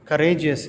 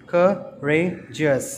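First: Said in the usual way. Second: Slow "courageous" in three separate beats; syllable by syllable. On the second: Shown as a demonstration. Teacher counting syllables for children, "courageous" slowly split in three. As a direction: break "courageous" into cou, ra, geous with pauses. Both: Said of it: "three syllables".

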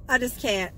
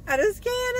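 First: Said in the usual way. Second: Overwhelmed squeal. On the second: Real, not acted.

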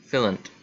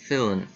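No difference in how they are said.

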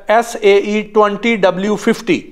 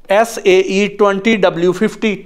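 Both takes have the same delivery.

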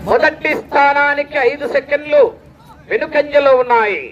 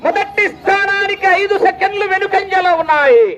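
First: Ordinary-pitched restatement, paused before the final phrase; measured announcer repeat. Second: High sustained call with a falling tail; high announcer call. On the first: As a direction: repeat it evenly in two parts. Same result repeated in lower pitch. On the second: Announcer telling crowd the time gap, high ringing call. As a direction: sing out the gap high, drop at the end. Result called high, then repeated lower. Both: Real, not acted.

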